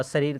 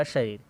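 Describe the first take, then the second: First: "शरीर" as "sareer"; wrong s sound. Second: "शरीर" as "shareer"; correct sh sound. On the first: Teacher recaps the wrong form, "शरीर" said as sareer. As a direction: begin "शरीर" with s, not sh. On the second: Teacher recaps the right form, "शरीर" said as shareer. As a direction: begin "शरीर" with a clear sh. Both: Shown as a demonstration. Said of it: "समझा देते हैं शुद्ध रूप".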